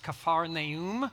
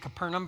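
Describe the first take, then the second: First: The name is said in its original two-word form. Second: The name is said in its familiar anglicized form. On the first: This is the actual original name. "but it's Kephar Naum" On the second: This is the usual everyday way of saying it. "We always say Capernaum"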